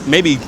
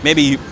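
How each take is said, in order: Both takes have the same delivery.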